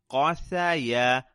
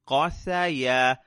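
The two takes are said the same way.

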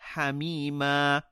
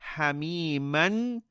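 First: The word ends with a long a vowel. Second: The word ends with an n sound. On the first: The speaker calls it right. "we will say hamima" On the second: The speaker calls it wrong. "instead of saying hamiman"

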